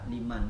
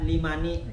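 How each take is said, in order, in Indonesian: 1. Kata ini berakhir dengan bunyi n. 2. Kata ini berakhir dengan vokal tambahan setelah n. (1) "salah liman" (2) "Jangan dibaca limani"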